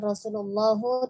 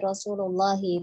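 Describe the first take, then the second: First: The word ends in an 'u' vowel. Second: The word ends in an 'i' vowel. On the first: The speaker calls it wrong. "Bukan Rasulullahu" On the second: The speaker calls it right. "tapi Rasulullahi"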